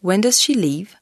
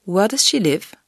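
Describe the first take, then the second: First: "leave" with a long stretched ee, lips spread; long tense vowel in "leave"; long English ee. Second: "live" with a short, open i between i and e; short lax vowel in "live"; short English i. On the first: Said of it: "C'est un I long". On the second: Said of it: "Le son I est court". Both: Shown as a demonstration.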